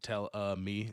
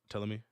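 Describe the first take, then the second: First: An extra vowel sound is inserted before 'me'. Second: The two words run together with no extra vowel. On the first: "pronounced it tell uh me" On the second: "instead of like tell tell me"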